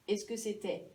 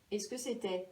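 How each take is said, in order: Both takes have the same delivery.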